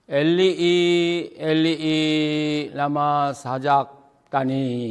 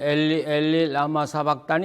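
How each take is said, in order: First: Eli ends with a drawn-out final ee vowel. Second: Eli ends short, without an added final vowel. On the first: "히브리어로 읽으면 ... 끝에 이자가 붙어야" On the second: "우리 신약성경에는 ... 이렇게 되어 있지만"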